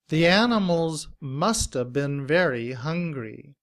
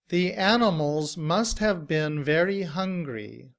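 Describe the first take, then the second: First: 'Must have' is blended into reduced 'musta'. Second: 'Must have' is said fully and separately. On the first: "in reduced form, must have becomes musta" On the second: "In citation form"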